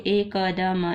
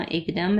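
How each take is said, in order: First: एकदम in separate sounds, e-ka-da-ma; sounded out. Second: Said in the usual way. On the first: Shown as a demonstration. Teacher building a word for a learner, sounded out. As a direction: say एकदम letter by letter, voicing each vowel.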